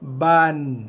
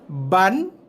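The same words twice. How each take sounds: First: The vowel is held for one full beat. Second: The vowel is not held for one beat. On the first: The speaker calls it right. "Macam tu bunyi yang tepat dia" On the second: The speaker calls it wrong. "Tapi sebenarnya bunyi yang salah. Kerana kita tidak membunyikan huruf ba ni pada kadar satu harakat"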